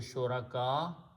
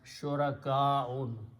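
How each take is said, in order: First: The word ends on a vowel, without -un. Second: The word ends with a full -un ending. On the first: This is the form used when stopping. "When we, sta- we stop, we say shuraka" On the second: This is the full form of the word. "but shurakaun"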